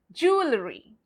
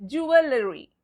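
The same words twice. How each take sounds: First: JEWELRY as jool-uh-ree; silent E. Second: JEWELRY stretched to joo-uh-luh-ree; spelling pronunciation. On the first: Teacher repeats the correct way, JEWELRY as jool-uh-ree. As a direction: say JEWELRY starting with one syllable JOOL, jool-uh-ree. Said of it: "We pronounce it". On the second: Teacher repeats the mistake, JEWELRY as joo-uh-luh-ree. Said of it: "we go by the words". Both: Shown as a demonstration.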